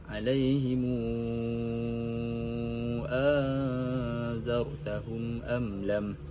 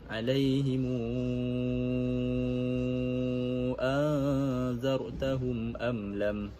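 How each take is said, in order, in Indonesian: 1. Hamzah kedua dilunakkan, tidak dihentikan sepenuhnya. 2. Hamzah kedua menjadi vokal panjang. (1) "silah mim jamak dengan isbaq uh, beserta tashil hamzah yang kedua" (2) "beserta ibdal hamzah yang kedua dengan huruf mad"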